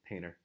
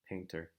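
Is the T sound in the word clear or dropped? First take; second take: dropped; clear. First: The T sound almost disappears. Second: The T sound is strongly pronounced. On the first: "the T sound almost goes away completely" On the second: "We don't really hear people saying the T sound so strongly"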